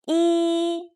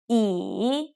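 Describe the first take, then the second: First: The pitch stays high and level. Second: The pitch dips down and then rises.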